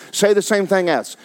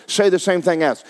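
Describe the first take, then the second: No difference in how they are said.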